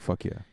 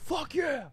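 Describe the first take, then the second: First: It is said casually, with little effort. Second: It is said with strong, forced emphasis. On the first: The speaker calls it right. "Like he just" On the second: The speaker calls it wrong. "he didn't go"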